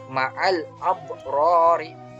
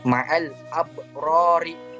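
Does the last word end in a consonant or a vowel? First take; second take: vowel; vowel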